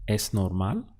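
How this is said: It has the intonation of a question. Is it normal? "Now ask, is it normal?"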